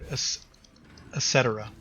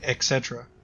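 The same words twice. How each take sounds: First: The first syllable is said with a plain t. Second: The first syllable is said with an x sound.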